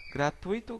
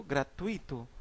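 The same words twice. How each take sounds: First: Gratuito stressed on the í, gra-tu-Í-to; diástole gratuito; stress moved forward. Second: Said in the usual way. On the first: Shown as a demonstration. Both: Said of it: "Por exemplo".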